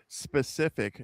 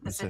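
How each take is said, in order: First: The word starts with a clear s sound. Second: The word is said fast without the s. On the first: "if you ever hear me say specific" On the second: "if I say it too fast, there's no S. I'll say Pacific"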